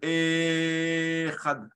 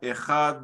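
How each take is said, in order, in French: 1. La voyelle e initiale est allongée. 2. Le son d final est allongé. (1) "le Aleph" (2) "le Dalet"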